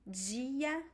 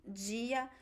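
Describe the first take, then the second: First: The d sounds like 'dj' before the i. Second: The d sounds like 'dj' before the i.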